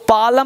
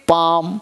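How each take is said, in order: First: An l sound is heard before the m. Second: No l sound is heard before the m. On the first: The speaker calls it wrong. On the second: The speaker calls it right.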